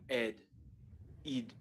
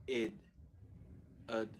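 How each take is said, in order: No difference in how they are said.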